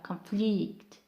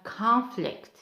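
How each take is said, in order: First: The stress is on the second syllable. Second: The stress is on the first syllable. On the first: It is used as a verb. "for verb we have conflict" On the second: It is used as a noun. "Noun we have conflict"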